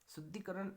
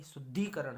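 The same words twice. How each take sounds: First: शुद्धिकरण with short 'i' after 'd', higher pitch; wrong form. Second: शुद्धिकरण with long 'dhee', punched; correct long vowel. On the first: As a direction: keep 'dhi' short in शुद्धिकरण. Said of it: "नहीं". (शुद्धिकरण, 'द्धि' में छोटी मात्रा) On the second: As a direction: lean on a long 'ee' in शुद्धिकरण. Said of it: "बड़ी मात्रा". (शुद्धिकरण, 'द्धी' में बड़ी मात्रा) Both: Shown as a demonstration.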